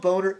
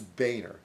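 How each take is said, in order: First: The first syllable sounds like 'bone'. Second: The first syllable sounds like 'bay'. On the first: The speaker calls it wrong. "It's not Boner" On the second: The speaker calls it right. "it's Boehner"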